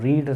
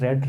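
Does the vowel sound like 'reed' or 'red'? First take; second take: reed; red. First: The vowel is long, like 'reed'. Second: The vowel is short, like 'red'. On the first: It is the present tense form. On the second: It is the past participle form.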